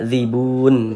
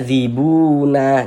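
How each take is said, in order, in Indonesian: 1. Kata zibun berakhir dengan huruf n yang mati. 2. Kata zibun berakhir dengan vokal setelah huruf n. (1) "Tapi dibaca zibun begitu" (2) "Jangan dibaca zibuna"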